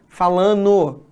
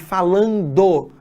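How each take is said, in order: First: The d sound in the ending is dropped. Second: The d sound in the ending is kept. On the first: The speaker calls it wrong. "as pessoas tirem o D do gerúndio" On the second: The speaker calls it right. "ao invés de"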